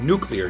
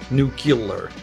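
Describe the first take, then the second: First: Said as nu-clee-er, with a clear cluster. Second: Said as nu-cu-lar, with an added vowel. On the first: The speaker calls it right. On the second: The speaker calls it wrong. "not nuclear. That's a that's a W-ism"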